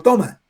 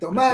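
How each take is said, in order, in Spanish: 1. El acento está en la primera sílaba. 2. El acento está en la última sílaba. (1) "si no toma" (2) "le ponen la tilde en la A"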